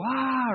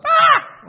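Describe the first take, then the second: First: A small, higher-pitched fretful "ah"; a mild worried sigh of stress; little stressed ah. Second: A full loud, very high panicked scream. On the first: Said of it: "We get a little". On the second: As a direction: shriek like everything is falling apart. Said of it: "We get like". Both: Shown as a demonstration.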